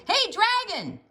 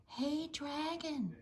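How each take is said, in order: First: High, loud shout into the ear. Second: Slow, softer whispered call. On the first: Princess shouting into the dragon's ear. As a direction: yell to wake him. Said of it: "shouted as loud as she could". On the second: Princess testing the sleeping dragon, whispering. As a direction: check if he's asleep. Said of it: "whispered very softly". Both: A narrator's reading.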